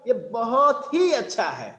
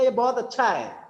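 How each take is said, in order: First: It is said with strong, emphatic feeling. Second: It is said plainly, without extra emphasis.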